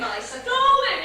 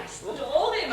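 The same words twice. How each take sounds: First: "stalled" higher and louder; "I stalled him" repeated, punching "stalled" up and loud; insistent. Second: Said in the usual way. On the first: Acted. Wife defending herself to husband, louder.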